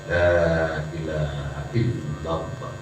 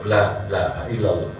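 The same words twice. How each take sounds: First: It is said slowly, vowels drawn out. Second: It is said quickly and rushed.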